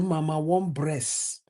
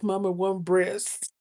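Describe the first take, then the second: First: It is said in a put-on foreign accent. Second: It is said in the speaker's ordinary accent.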